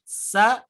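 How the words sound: The s is thin with little breath. The speaker calls it right. "kalau pengucapannya tipis, sa itu sedikit"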